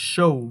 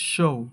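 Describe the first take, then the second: The two takes are said the same way.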